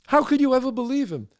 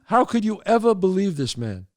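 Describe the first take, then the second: First: The same question pitched higher, HOW leading; more incredulous. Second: Disbelieving question to the wife; incredulous. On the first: Asking the wife again, higher and more astonished. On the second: Telling the wife, amazed she believed him. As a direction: ask her, stunned she fell for it. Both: Acted.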